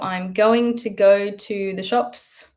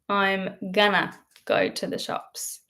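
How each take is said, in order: First: 'Going to' is said in full. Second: 'Going to' is reduced to 'gonna'. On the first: "I can use the word going" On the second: "but I can say gonna"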